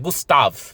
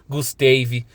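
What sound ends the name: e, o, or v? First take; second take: v; e. First: The name ends on the v consonant. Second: The name ends with an added e vowel. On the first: The speaker calls it right. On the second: The speaker calls it wrong.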